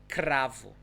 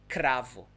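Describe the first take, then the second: The two takes are said the same way.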